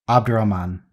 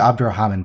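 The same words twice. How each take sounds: First: The name is said without an extra h sound. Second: The name is said with an extra h sound.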